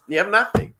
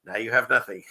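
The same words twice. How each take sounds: First: High, louder mocking echo with a rising end; mock repeat. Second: Said in the usual way. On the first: Host echoing a viewer's comment for laughs, high mocking repeat. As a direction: repeat the punchline pitched way up.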